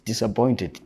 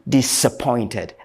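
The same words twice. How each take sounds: First: The first syllable has a z sound. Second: The first syllable has an s sound. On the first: The speaker calls it wrong. "Don't always say" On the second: The speaker calls it right. "they have the s sound, not the z sound"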